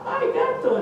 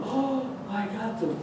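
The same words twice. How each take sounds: First: Much higher, with a nervous laugh; terrified bravado breaking into a laugh; father losing his nerve at the cat's eyes; panicky squeak. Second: Softer, slow, nervous bravado; father's brave words going soft; quiet and unsure. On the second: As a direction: mutter it slowly, not so sure now. Father sees the cat. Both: Acted.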